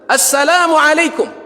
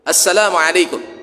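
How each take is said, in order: First: The greeting is said with the loudest voice. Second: The greeting is said softly. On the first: "lebih tinggi lagi suaranya" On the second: "Yang pertama"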